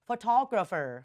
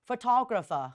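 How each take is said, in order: First: Said in an American accent, final r sounded. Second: Said in a British accent, final r dropped. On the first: "แบบอเมริกัน" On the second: "แบบ British แบบอังกฤษเนอะอังกฤษเนี่ยเสียงตัว r ข้างหลังเนี่ยเขาจะหายไป"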